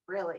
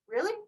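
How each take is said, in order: First: The voice falls at the end. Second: The voice rises at the end.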